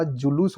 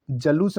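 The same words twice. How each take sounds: First: Said in the usual way. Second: जलूस starting with "ja"; short a in the first syllable of जलूस; mispronounced जुलूस. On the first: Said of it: "जुलूस होगा". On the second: Shown as a demonstration. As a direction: say जलूस as "ja-loos". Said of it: "जलूस नहीं होता".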